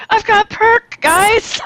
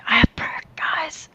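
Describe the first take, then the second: First: High excited quote; excited squeal. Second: Whispered, soft ASMR version. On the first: Retold or imitated. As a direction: squeal it with glee. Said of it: "was excited and said". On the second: Shown as a demonstration. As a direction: hush it into a whisper. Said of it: "gotta do it all in A S M R".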